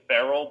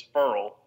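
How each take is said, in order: First: Ferrell said FAIR-ul; two beats in Ferrell, with an open E; mistaken pronunciation. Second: Ferrell said FURL; one beat in Ferrell, rhyming with "curl"; correct pronunciation. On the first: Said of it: "'cause they were calling him". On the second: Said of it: "but it's Ferrell". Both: Shown as a demonstration.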